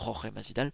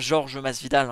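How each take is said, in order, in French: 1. Le prénom se prononce comme l'espagnol Jorge. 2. Le prénom se prononce comme le français Georges. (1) "On dit bien Jorge Masvidal" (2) "Et pas Georges Masvidal"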